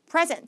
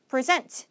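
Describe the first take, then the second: First: The stress is on the first syllable. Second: The stress is on the second syllable. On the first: It is the noun, a gift or the current time. "명사의 의미에서는 present" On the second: It is the verb, to present something. "동사할 때는 뒤에 강세인데"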